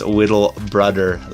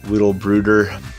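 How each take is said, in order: First: The second word rhymes with mother. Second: The second word does not rhyme with mother. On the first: The speaker calls it right. "I'll make that correction now. It's Whittle Brother, as in little brother" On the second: The speaker calls it wrong. "they're calling you, uh, what was it, Whittle Brooder, and I apologize for that"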